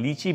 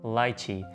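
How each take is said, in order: First: The first vowel sounds like 'ee'. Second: The first vowel sounds like 'eye'. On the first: The speaker calls it wrong. "इसको हम अक्सर यहाँ पे लीची बोलते हैं" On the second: The speaker calls it right. "Basically ये English के अंदर लाइची है"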